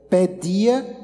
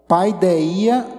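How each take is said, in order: First: The first syllable sounds like 'pe'. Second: The first syllable sounds like 'pai'. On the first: This is how modern Greek says it. "se a gente pronunciar hoje no grego atual seria pedia" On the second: This is the original Greek form. "no grego é a palavra paideia"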